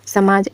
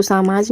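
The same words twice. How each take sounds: First: समाज said as 'sa-maaj'; corrected pronunciation. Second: समाज said as 'saa-maaj'; mispronounced word. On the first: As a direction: keep the first vowel of समाज short. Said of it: "क्या होता है, समाज". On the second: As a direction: stretch the first vowel of समाज to 'aa'. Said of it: "तो समाज नहीं होता". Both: Shown as a demonstration.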